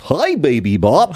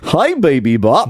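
First: Slow, goofy purple dinosaur voice; Barney impression. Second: Slow, goofy purple dinosaur voice; cheery kids' TV dinosaur greeting, drawn out; Barney impression. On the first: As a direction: draw out a cheery kids' TV dinosaur greeting. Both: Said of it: "That's a really good Barney impression".

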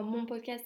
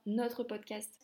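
First: Contrastive stress on the word mon. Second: Contrastive stress on the word notre. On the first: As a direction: lean on mon, as the one rejected. Contrasts my podcast with ours. (accent d'insistance sur mon) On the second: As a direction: lean on notre, as the correction. Corrects mine to ours. (accent d'insistance sur notre) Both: Real, not acted.

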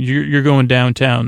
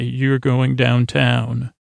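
First: Said in the usual way. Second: Slow, drawn-out delivery; deliberate cop line. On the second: Retold or imitated. Cops roll up to take him downtown, slow and deliberate. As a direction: stretch it out like a cop making an arrest.

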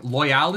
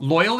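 First: "loyal" said as loy-AL, with a clear "al" ending; alternative name pronunciation. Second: Said in the usual way. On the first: Shown as a demonstration. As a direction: say "loyal" as loy-AL, full vowel in the second syllable. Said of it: "loyal is just better". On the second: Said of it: "it's not just the word".

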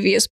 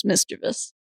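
First: "mischievous" said mis-CHEE-vee-us. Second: "mischievous" said MIS-chuh-vus; three syllables in "mischievous", stress first. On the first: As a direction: lean on CHEE in "mischievous", four syllables. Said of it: "I always say". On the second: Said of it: "correct is". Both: Shown as a demonstration.

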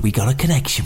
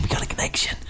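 First: Said in the usual way. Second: Whispered. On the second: Shown as a demonstration.

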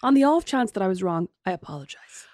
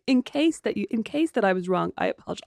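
First: A fake humble apology; mock apology. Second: Parroting a silly apology with scorn; sarcastic mimicry of a half apology; mocking repeat. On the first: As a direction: say it grandly then let the apology fade. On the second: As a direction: echo her apology to make fun of it. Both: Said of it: "I'm gonna say that from now on".

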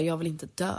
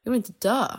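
First: A subdued retelling of a crying plea; mild mock sob, barely voiced; tearful plea. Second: A retold cry of fear, pitched up; desperate plea. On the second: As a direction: let the plea break upward. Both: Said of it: "Och jag sa bara".

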